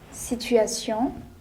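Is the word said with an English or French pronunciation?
French. The word is said with a French pronunciation. "Whereas in French, we pronounce them as"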